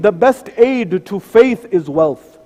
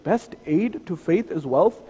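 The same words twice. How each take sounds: First: The best aid to faith is wealth, slow, each word weighted, best stressed; slow emphasis. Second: Best aid to faith is wealth? softer and slow, rising on wealth in disbelief; doubtful question. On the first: Shown as a demonstration. To the congregation, stating the narration slowly and firmly. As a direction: lay it down slowly as a firm teaching. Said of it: "narration after narration that says". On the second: Pretend. Imagined listener doubting the preacher, quietly incredulous. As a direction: voice the listener's skeptical objection quietly. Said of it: "You may say".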